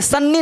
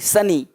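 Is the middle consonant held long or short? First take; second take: long; short. First: The middle n sound is held long. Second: The middle n sound is short. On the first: The speaker calls it wrong. "सन्नी नहीं बोलते, सन्नी नहीं" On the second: The speaker calls it right. "सनी day"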